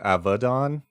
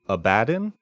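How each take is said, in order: First: The name is said with a Hebrew pronunciation. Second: The name is said with an English pronunciation. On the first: "if you go with the original Hebrew, it is in Hebrew it's Avadon" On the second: "if it is in English, current English, it's Abaddon"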